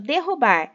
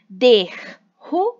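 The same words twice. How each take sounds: First: Said in the usual way. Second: "derrubar" split slowly into syllables, de-rru-bar; teacher stretching "derrubar" out syllable by syllable; syllabified slowly. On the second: Shown as a demonstration. Teacher to pupils, showing syllables: "derrubar" drawn out slowly. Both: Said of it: "três sílabas".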